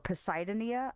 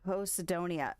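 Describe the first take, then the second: First: The opening sounds like 'Poseidon'. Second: The opening does not sound like 'Poseidon'. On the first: "I'm assuming it's a play on Poseidon" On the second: "Posidonia doesn't sound right either because it doesn't sound like Poseidon"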